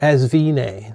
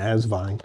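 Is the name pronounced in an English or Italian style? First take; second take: Italian; English. First: The name is pronounced with an Italian-style sound. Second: The name is pronounced with a plain English sound. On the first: "like Italian style" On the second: "I imagine Asvine"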